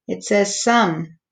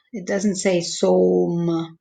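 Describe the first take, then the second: First: "some" said with a short u sound; right vowel. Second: "som" said with a long o like home; wrong vowel. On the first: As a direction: say "some" like sum, short and quick. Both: Shown as a demonstration.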